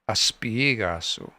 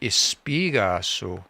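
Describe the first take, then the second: First: The word begins with an 'a' vowel sound. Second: The word begins with an 'e' vowel sound. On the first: The speaker calls it right. "it's aspigaso" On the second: The speaker calls it wrong. "I've just been saying it wrong"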